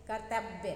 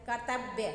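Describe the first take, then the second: No difference in how they are said.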